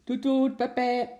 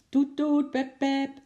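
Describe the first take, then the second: First: High, loud imitated honking; impatient car horns. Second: High, piercing loud horn imitation; fiercer impatient honking. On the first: Cars stuck in a traffic jam, impatient honking. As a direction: toot like waiting cars. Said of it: "begonnen ongeduldig te toeteren". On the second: Long row of waiting cars, fierce impatient honking. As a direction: honk insistently, held on one high note. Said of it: "Steeds feller en ongeduldiger klonk het getoeter". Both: A narrator's reading.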